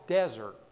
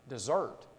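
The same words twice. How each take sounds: First: The stress is on the first syllable. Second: The stress is on the second syllable. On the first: A dry, barren place. "A desert has the emphasis on the first syllable" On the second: To abandon or leave. "put the emphasis on the second syllable"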